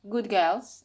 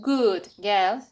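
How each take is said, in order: First: Good ends with a g-like sound. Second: Good ends with a clear d sound. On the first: "D can change to G" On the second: "instead of good girls"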